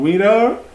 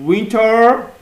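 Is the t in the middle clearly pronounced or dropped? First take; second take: dropped; pronounced. First: The t in the middle is dropped. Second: The t in the middle is clearly pronounced.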